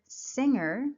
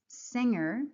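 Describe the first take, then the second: The two takes are said the same way.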